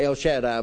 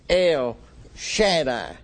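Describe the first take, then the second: First: El runs straight into Shaddai. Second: El is set apart from Shaddai. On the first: The speaker calls it wrong. "We in America, a lot of times you would say" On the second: The speaker calls it right. "you need to separate"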